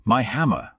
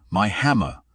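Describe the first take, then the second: First: Repeated cry, pitched higher; angry god crying out again; thundering. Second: Booming angry cry; god roaring for his lost hammer; thundering. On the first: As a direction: let the second cry climb higher. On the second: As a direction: thunder it out in rage. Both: A narrator's reading. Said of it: "thundered Thor".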